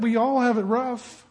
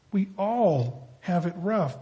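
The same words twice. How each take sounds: First: Said in the usual way. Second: "We all have it rough" said slowly and softly, "all" leaned on; softer, slower repeat. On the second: Real, not acted. Preacher repeating to the congregation, slow and hushed. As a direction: let the repeat sink in quietly.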